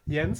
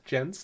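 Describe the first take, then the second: First: The name is pronounced the German way. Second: The name is pronounced a non-German way. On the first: The person is German. "If it's a German guy, then it's Jens" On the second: The person is not German.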